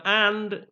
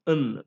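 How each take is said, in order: First: AND with a full open "a"; strong form. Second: AND reduced to "uhn", written IN; weak form. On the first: Teacher contrasting forms of and, strong form. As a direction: say AND as a full word. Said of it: "and is a strong form". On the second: Teacher contrasting forms of and, weak form. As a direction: say IN as a bare neutral "uhn". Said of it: "whereas you have n". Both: Shown as a demonstration.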